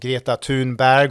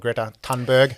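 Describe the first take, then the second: First: The name is pronounced the Swedish way. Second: The name is pronounced the English way.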